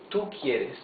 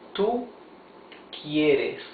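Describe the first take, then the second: First: It is spoken at a normal speed. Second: It is spoken slowly and carefully.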